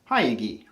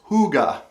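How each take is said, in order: First: The word is read with English spelling sounds. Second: The word is said the Danish way, like hooga. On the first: The speaker calls it wrong. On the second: The speaker calls it right. "it's hooga"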